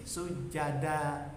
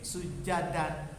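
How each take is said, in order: First: The word ends with a lengthened a vowel. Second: The word ends with an n sound. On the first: The reader stops at this word. "Kalau berhenti sujada" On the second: The reader continues without stopping here. "Kalau tidak berhenti sujadan"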